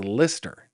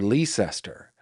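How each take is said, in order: First: The name is said like 'Lister'. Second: The name is said following its spelling. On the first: This is how it is said in the United Kingdom. The speaker calls it right. "but it is not. It says Lister" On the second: A reader from across the pond might read it this way. The speaker calls it wrong. "we might read that and say that says Leicester"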